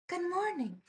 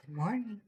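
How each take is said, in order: First: "Good morning" pitched high with a falling sing-song lilt. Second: Said in the usual way. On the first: Pretend. Streamer greeting a viewer, sing-song high "Good morning". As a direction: chirp "Good morning" up high, then let it fall.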